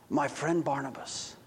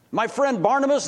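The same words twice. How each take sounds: First: Much softer, lower, sorrowful naming of his friend; saddened. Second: Raised, astonished naming of his friend; amazed. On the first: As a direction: say it heavy with dismay. Zacchaeus saddened. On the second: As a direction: lift it in disbelief. Zacchaeus stunned by the news. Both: Acted.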